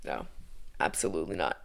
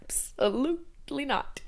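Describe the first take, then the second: First: Low, whispered dismissal; hushed, under-the-breath no; whispered refusal. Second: Higher, slow drawn-out refusal; soft, slow, high-pitched no; emphatic refusal. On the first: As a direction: whisper it, shutting the idea down. Rejects her own mock cheer. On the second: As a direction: stretch it out syllable by syllable, softly. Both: Real, not acted.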